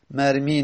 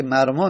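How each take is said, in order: First: مرمی said marmi, long i at the end, pattern مفعل as mafʕil with kasra on the middle. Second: مرما said marmā, open a at the end, pattern مفعل as mafʕal with fatha on the middle. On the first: Teacher showing the rejected form مرمی as marmi. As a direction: pronounce مرمی as marmi, stressing the i. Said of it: "مرمی نمیگیم بر وزن مفعل". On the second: Teacher giving students the correct form مرما as marmā. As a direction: pronounce مرما as marmā, ending on a long open a. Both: Shown as a demonstration.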